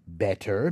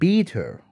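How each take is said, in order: First: The vowel is a short e sound. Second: The vowel is raised toward an ee sound. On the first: "in American English ... and better" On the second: "when the Kiwis pronounce it ... They become better and beater"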